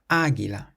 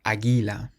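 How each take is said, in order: First: The stress is on the first syllable. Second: The stress is on a later syllable. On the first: The speaker calls it right. "We have an accent on the first A" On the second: The speaker calls it wrong.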